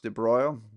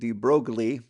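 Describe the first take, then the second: First: The name is said with a French pronunciation. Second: The name is read as it is spelled. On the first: "I think it might be pronounced de Broglie" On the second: "it looks like de Broglie"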